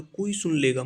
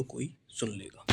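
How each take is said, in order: First: A bit louder, said openly, not hushed; the loud version, before the hushed one. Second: Much softer, almost under the breath; hushed. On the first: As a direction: say it as if not caring who hears. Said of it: "उसमें जोर से बोलो". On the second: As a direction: say it so nobody nearby hears. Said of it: "धीरे से बोलो". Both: Shown as a demonstration.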